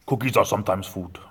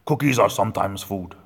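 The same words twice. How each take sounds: First: A hint of the monster; lightly voiced muppet lesson; Cookie Monster voice. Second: Louder monster voice, leaning on cookies. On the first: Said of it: "That's what he tells the kids now". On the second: Retold or imitated. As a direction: boom it like the muppet. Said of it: "he says".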